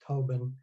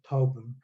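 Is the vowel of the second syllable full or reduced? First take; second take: full; reduced. First: Both syllables are clearly and fully articulated. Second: The second vowel drops and the consonants merge. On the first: "hyperarticulated version" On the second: "extremely hypoarticulated version"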